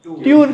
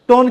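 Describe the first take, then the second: First: "ट्यून" with a y-glide and oo vowel in place of the o of tone; mispronounced tone. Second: Said in the usual way. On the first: Shown as a demonstration. Teacher showing students an interview slip, tone mispronounced as "ट्यून". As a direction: say tone wrongly as "ट्यून". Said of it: "टोन की बजाय". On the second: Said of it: "ट्यून कह देते हैं".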